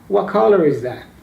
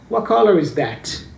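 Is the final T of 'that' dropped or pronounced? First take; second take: dropped; pronounced. First: The final T of 'that' is left out. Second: The final T of 'that' is clearly pronounced. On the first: "Or I can choose to cut out entirely" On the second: "I can actually pronounce the T here"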